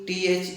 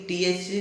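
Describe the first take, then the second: Both takes have the same delivery.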